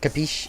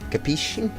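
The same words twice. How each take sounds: First: It is said without a strong Italian accent. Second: It is said in an exaggerated Italian accent.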